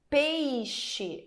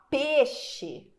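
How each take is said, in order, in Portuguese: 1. A semivogal i é pronunciada por completo. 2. A semivogal i quase desaparece.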